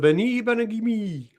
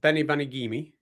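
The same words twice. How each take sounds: First: The name is said with a put-on French accent. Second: The name is said with a plain English accent. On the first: "I've got a talent for accents" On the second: "that's how it reads"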